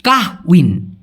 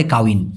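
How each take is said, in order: First: কাহউইন said with the h sounded, ka-h-win; কাহউইন with audible h; spelled pronunciation. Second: কাউইন said without the h, ka-win; কাউইন as Malaysians say it, h dropped. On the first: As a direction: pronounce কাহউইন with a clear h before উইন. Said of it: "উচ্চারণটা লেখছি কীরকম". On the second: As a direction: say কাউইন smoothly, no h. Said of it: "এই হটাকে ওরা উচ্চারণ না করে". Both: Shown as a demonstration.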